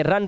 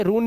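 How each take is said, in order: First: रन with a short "uh"; correct pronunciation. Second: रून with an "oo" vowel; wrong pronunciation. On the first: Teacher showing the rule, रन with short "a". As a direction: say रन rhyming with "sun". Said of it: "रन पढ़ेंगे". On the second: Teacher warning pupils, रून misread with "oo". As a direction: say रून rhyming with "moon". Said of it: "अब इसे रून नहीं पढ़ेंगे". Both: Shown as a demonstration.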